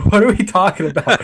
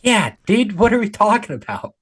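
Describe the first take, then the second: First: High, laughing repeat of the question; laughing disbelief. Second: Incredulous. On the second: Incredulous reply to obvious question. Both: Real, not acted.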